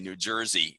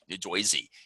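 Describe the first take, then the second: First: It is said in a Southern US accent. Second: It is said in a New Jersey accent.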